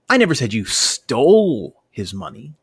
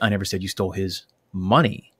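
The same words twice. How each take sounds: First: The word 'stole' is stressed. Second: The word 'money' is stressed. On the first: The money may have been taken some other way than stealing. "maybe I think you embezzled the money or accidentally walked off with it" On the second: Something other than money may have been stolen. "seems to imply that you may have taken something else"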